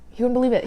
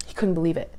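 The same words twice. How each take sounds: First: "believe" pushed higher and louder, amazed; emphatic repeat. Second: Said in the usual way. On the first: Real, not acted. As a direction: lean hard on "believe" the second time.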